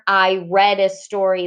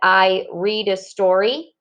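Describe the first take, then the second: First: The vowel in read is a short e. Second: The vowel in read is a long e. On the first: It happened in the past. "or I read a story last night" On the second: It happens now. "like I read a story"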